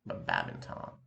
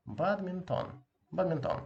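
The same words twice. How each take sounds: First: Badminton said the English way, low. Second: Badminton said the Russian way with a nasal final o. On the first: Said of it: "the same in English". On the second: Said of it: "the same in English. But badminton". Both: Shown as a demonstration.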